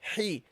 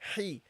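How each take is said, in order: First: The h sound is light, from mid-throat. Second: The h sound is light, from mid-throat.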